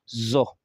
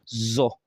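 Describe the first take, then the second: First: The consonant is a buzzing z sound. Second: The same.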